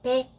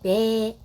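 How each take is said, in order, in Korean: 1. 모음을 짧게 발음해요. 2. 모음을 길게 발음해요. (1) "짧게 발음해서" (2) "길게 발음해서"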